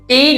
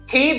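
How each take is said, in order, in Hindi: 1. t ध्वनि बिना हवा के झोंके के बोली जाती है। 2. t ध्वनि में हवा का झोंका होता है। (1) "टी नहीं बोलना" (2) "इसी तरह से ये ठी बोलना है"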